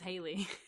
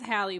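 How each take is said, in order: First: The first syllable sounds like 'hay'. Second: The first syllable sounds like 'hal'. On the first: This is how most people say it. The speaker calls it wrong. "but everyone says Haley" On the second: This is the name's real form. The speaker calls it right. "it is Hallie"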